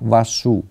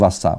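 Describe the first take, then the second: First: The second syllable ends in an 'oo' vowel. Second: The second syllable ends in an 'a' vowel. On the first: The speaker calls it right. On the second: The speaker calls it wrong.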